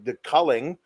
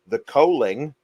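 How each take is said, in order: First: The first vowel is short, as in 'cull'. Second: The first vowel is long, as in 'coal'.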